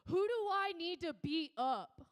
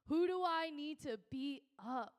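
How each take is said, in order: First: Loud, slow, menacing bellow; tough guy threat. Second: Loud slow challenge, stress on who; repeated threat. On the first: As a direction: bark it like a bruiser looking for a fight. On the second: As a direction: demand it again, heavier on who. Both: Retold or imitated.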